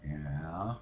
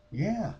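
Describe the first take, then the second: First: Low, quiet questioning rise; retold friend's prompt. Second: High, emphatic yes; retold confirmation. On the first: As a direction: prompt her to go on, low and soft. Friend's prompt, then her answer. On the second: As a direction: confirm it with pitch jumping up. Her answer to the prompt.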